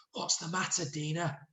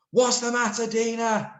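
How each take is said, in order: First: Soft, hushed question; whispered. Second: High, loud called-out question; shouted. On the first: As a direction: say it softly, as if secret. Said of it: "whispered Sid". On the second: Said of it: "shouted Sid". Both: Shown as a demonstration.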